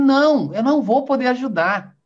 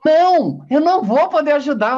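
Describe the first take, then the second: First: It is said more softly and calmly. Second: It is said louder and more firmly.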